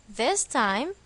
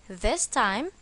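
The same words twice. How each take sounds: The two takes are said the same way.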